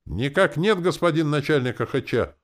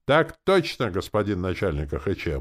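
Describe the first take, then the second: First: High, drawn chorus of recruits; mock-dismal soldiers' response; mournful. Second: Gung-ho chorus of recruits; dashing bark. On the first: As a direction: answer up high in a doleful military reply. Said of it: "заунывно ответили воины". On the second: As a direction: snap out a hearty military reply. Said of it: "молодецки гаркнули бойцы". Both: A narrator's reading.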